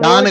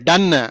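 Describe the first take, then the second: First: The vowel is an open 'o' as in 'hot'. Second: The vowel is a short 'u' as in 'cup'. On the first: The speaker calls it wrong. "డాన్ కాదమ్మా" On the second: The speaker calls it right. "డన్. ... అంటే అయిపోయింది అని"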